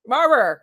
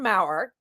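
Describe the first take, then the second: First: The surname does not rhyme with power. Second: The surname rhymes with power. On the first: The speaker calls it wrong. "I said it wrong" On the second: The speaker calls it right. "that's perfect"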